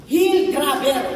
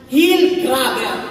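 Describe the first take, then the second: First: Said in the usual way. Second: "hill grabber" drawn out slowly, HILL stressed and louder; preacher stressing the meaning of Jacob's name; slow emphatic naming. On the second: Shown as a demonstration. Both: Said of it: "ang meaning po ng pangalan na yan".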